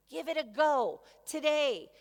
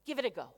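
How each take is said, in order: First: Louder and higher. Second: Said in the usual way. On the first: Shown as a demonstration. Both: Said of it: "challenge you to do".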